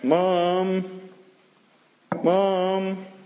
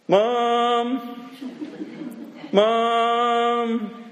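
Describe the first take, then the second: First: It is called at moderate loudness. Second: It is called louder and more urgently.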